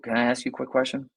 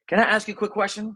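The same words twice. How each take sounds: First: It sounds hesitant, lame and low in energy. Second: It sounds confident and full of energy.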